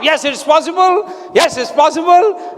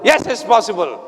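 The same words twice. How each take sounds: First: Rallying chant of conviction; fists-up conviction. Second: Said in the usual way. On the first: Shown as a demonstration. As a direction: shout it with both fists clenched. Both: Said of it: "make two fists like this".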